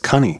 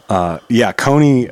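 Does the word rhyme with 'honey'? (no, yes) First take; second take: yes; no. First: The word rhymes with honey. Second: The word does not rhyme with honey. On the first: The speaker calls it right. "they actually used to pronounce it as cunny, like honey" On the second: The speaker calls it wrong. "I'm actually mispronouncing it wrong"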